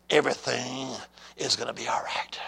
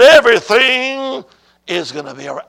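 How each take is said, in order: First: Low, hushed voice of God; soft and low, falling away to a whisper; quiet divine reassurance. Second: Booming divine proclamation. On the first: God answers his praying son, low and hushed. Quoting God's first answer to him. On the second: God answers the preacher's "What?", loud and emphatic. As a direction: proclaim it loudly, then settle down. Repeating God's answer to congregation. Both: Retold or imitated.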